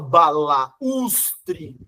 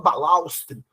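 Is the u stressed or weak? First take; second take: stressed; weak. First: The u is stressed, separate from the a. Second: The u is weak, joined with the a. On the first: The speaker calls it right. "você fala balaustre" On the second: The speaker calls it wrong. "você não fala balaustre"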